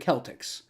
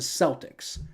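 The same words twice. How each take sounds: First: The word begins with a hard K sound. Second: The word begins with a soft S sound. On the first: The speaker calls it right. "it should be a hard C, you know, like you would say cake" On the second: The speaker calls it wrong. "not the Celtics"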